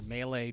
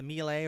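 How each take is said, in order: First: It is said with an American pronunciation. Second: It is said with a non-American pronunciation.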